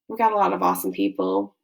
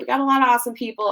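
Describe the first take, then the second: First: It sounds insincere and flat. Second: It sounds warm and sincere.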